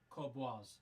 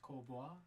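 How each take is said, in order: First: The name ends with an S sound. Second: The name ends without an S sound. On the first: The speaker calls it right. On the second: The speaker calls it wrong.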